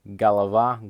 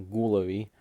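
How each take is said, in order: First: "голова" stressed on the final а, ga-la-VA; stress on last syllable. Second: "головы" stressed on the first о, GO-la-vy; stress on first syllable. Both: Shown as a demonstration. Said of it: "the stress is in the same place".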